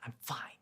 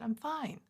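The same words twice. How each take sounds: First: It sounds like the speaker is not fine. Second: It sounds sincere and genuinely fine.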